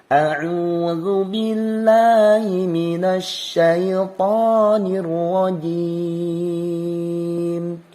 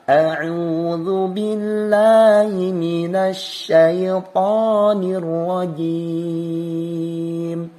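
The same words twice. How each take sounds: Both takes have the same delivery.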